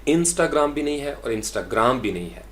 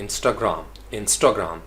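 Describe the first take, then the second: First: First IN-stagram, then insta-GRAM; Instagram weighted on first, then last syllable; wrong stress demo. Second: Instagram as in-STAH-gram, ending light; weight on the middle STA of Instagram; stress on middle syllable. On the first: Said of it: "ना तो इन के ऊपर". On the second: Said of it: "स्टा के ऊपर जो है वो stress". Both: Shown as a demonstration.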